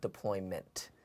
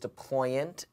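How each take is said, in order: First: The word ends with a 'ment' sound. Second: The word ends with an 'ant' sound. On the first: The speaker calls it wrong. "not deployment" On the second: The speaker calls it right. "It is deployant"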